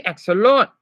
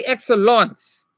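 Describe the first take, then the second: First: "excellent" ending in a nasal vowel, no final T; correct version. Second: "excellence" with a hissed ts at the end; wrong version. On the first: Teacher showing the right French ending. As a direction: say "excellent" the French way, last T dropped. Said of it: "You say excellent". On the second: Teacher showing the mistake to avoid. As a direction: say "excellence" the wrong way, final S sounded. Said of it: "You don't say excellence". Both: Shown as a demonstration.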